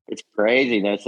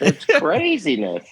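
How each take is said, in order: First: Said in the usual way. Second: High, slow, amused It's craziness; amused disbelief. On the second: Real, not acted. Telling the hosts about fans, high slow amused It's craziness. Repeats phrase, first marked.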